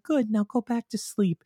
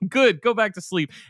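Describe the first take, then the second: First: It is said calmly, without yelling. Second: It is yelled loudly.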